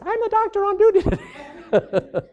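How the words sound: It imitates the young doctor's voice.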